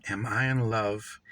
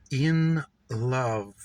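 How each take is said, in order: First: Said in the usual way. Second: Slow, drawn-out In love, falling to rest; savoured echo. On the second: Acted. Narrator musing on her own love, slow savouring echo. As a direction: linger on In love as if tasting it.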